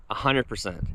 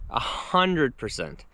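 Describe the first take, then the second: First: Said in the usual way. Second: HUNDRED stretched out slowly for emphasis; slow, emphatic weight on "hundred"; emphatic repeat. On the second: Real, not acted. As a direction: lean hard on "hundred", drawing it out.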